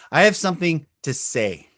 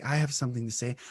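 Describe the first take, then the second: First: Said in the usual way. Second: Soft, small voice; hushed, hesitant delivery; quiet. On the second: Shown as a demonstration. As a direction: say it timidly, barely above a murmur. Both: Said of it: "Do you speak like this?".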